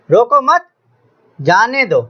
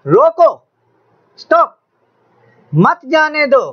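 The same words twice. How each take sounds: First: "रोको मत" together, rising on मत, pause, then "जाने दो" falling; pause after मत. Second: "रोको" alone as a high command, pause, then "मत जाने दो" joined; high, urgent "रोको", break, "मत जाने दो" in one run; pause after रोको. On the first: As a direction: break the phrase after मत, not after रोको. ("रोको मत" के बाद ठहराव, फिर "जाने दो") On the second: ("रोको" पर ऊँचे सुर में ठहराव, फिर "मत जाने दो") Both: Shown as a demonstration. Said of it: "सिर्फ और सिर्फ इस अलामत की जगह तब्दील करने से".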